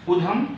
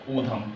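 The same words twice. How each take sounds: First: उधम with a short opening u; wrong short U. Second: ऊधम sound in उधम, long opening oo. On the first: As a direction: clip only the first vowel of उधम to short u. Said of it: "नहीं होगा". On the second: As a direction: hold the first vowel of उधम as long ū. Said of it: "बड़ा ऊ की मात्रा लगेगी". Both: Shown as a demonstration.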